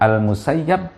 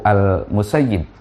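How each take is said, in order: First: The vowel after the doubled y is 'a'. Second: The vowel after the doubled y is 'i'. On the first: This is how the people of Iraq read it. "ada yang membaca fathah yaitu Al-Musayyab" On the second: This is how the people of Medina read it. "yang membaca kasroh yaitu Al-Musayyib"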